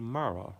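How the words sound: The name is said in a British accent. "I'm from Britain. Your name would be Mara"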